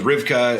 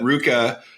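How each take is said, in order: First: The name is said with a v sound. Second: The name is said without a v sound. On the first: The speaker calls it wrong. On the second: The speaker calls it right.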